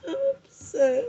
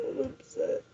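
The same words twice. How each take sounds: First: High, broken sob on the words; crying upset. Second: Breathless, barely voiced whisper; whispered upset. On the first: Repeating her feelings to viewers, crying high. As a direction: let the voice crack into crying. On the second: Repeating her feelings to viewers, whispered. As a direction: drop to a whisper. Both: Real, not acted.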